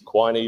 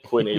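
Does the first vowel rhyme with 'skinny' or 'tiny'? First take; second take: tiny; skinny. First: The first vowel is long, as in 'tiny'. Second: The first vowel is short, as in 'skinny'. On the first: The speaker calls it right. "like tiny" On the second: The speaker calls it wrong. "like skinny"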